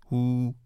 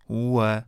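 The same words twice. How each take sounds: First: هو read as a plain final "u"; teacher shows هو at a stop, ending on "u"; pausal form. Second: هو with its full final vowel; teacher reads هو with the full final ending. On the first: Teacher shows students the pausal هو, ending on "u". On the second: Teacher shows students هو before the pause rule. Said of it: "در هنگام وقف". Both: Shown as a demonstration.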